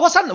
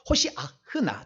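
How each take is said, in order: First: The word is said as the short form hosanna. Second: The word is said as the longer hoshiahna. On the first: This is the usual Korean form of the word. "한국말로는 발음이 잘 안 되니까 호산나라고 하는데" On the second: This is the exact original pronunciation. "정확한 발음은"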